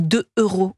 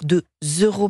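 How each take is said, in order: First: The words are not linked with a z sound. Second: A z sound links the two words. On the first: The speaker calls it wrong. "quand on dit deux euros" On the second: The speaker calls it right. "on doit dire deux euros, bien sûr, on fait la liaison"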